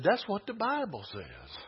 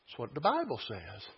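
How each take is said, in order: First: "That's what the Bible says" raised in pitch; insistent repeat. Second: "That's what the Bible says" low and soft; understated assertion. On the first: Preacher insists to congregation on the Bible, pitch raised. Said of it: "I said". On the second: Preacher cites the Bible to congregation, understated. First take, before emphatic repeat. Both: Real, not acted.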